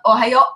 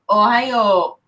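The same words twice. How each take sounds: First: The final vowel is short. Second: The final vowel is drawn out long. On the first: The speaker calls it wrong. "It's not Ohio" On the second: The speaker calls it right. "they make the sound longer"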